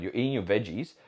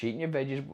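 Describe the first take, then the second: First: Said in the usual way. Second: "veggies" slurred as "vezhies" with a soft zh; stumbled word. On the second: Real, not acted. Coach listing foods, fumbling "veggies". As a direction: trip on "veggies" so it comes out "vezhies". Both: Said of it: "I can't even say the word".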